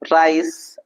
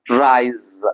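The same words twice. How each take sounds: First: The final sound is a hissing s. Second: The final sound is a buzzing z. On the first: The speaker calls it wrong. "let us not pronounce this as" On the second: The speaker calls it right. "it's nose, rise. So is sound, Z sound"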